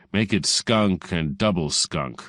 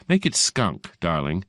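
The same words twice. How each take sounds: First: Slow, measured insult with understated venom; slightly venomous. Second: Breezy correction. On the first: Fortescue answering receptionist, slow and mildly venomous. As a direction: draw it out with a slight foul edge. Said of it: "with a slight added nuance of sulfurated hydrogen". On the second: Receptionist amending caller's message, lightly breezy. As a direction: lightly correct him, pitch lifted at the start. Receptionist tops his insult. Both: A narrator's reading.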